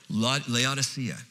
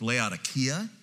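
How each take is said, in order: First: The middle consonant is a soft S sound. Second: The middle consonant is a hard K sound.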